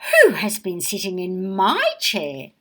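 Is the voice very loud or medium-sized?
medium-sized. It is said in a medium-sized voice.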